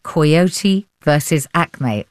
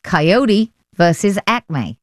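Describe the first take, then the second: First: Coyote said "koy-OH-tee"; alternative pronunciation. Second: Coyote said slowly as "kai-OH-dee"; American-style pronunciation. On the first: Host trying one way of saying the film title, "Coyote" as "koy-OH-tee". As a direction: say "Coyote" with an "oy" in the first syllable and a clear T. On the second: Host checking the title with the critic, "Coyote" as slow "kai-OH-dee". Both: Shown as a demonstration. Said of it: "Is that how you'd say it?".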